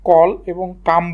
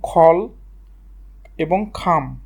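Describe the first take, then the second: First: The first consonant has no puff of air. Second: The first consonant has a strong puff of air. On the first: The speaker calls it wrong. "আমরা উপমহাদেশে এটাকে কল এবং কাম বলি" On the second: The speaker calls it right. "তোমরা অবশ্যই এটা খ উচ্চারণ করবা"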